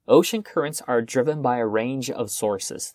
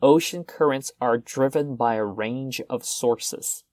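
First: It is said at a faster speed. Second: It is said at a normal speed.

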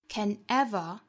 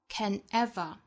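First: The words are separated, with ever stressed. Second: The same.

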